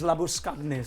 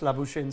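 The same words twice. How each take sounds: First: The name is said with an Afrikaans pronunciation. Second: The name is said with an anglicized pronunciation. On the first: This is how the name sounds in its original language. "the Afrikaans uh, pronunciation is Labuschagne" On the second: This is how the player prefers to be called. "he prefers being called Manas Labuschagne"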